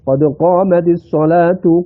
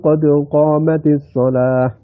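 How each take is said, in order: First: The last word ends with a -tu sound. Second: The last word ends with an -h sound. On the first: The phrase continues without a stop. "Itu rafa itu" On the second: The phrase comes to a stop here. "kalau wakaf pakai hak"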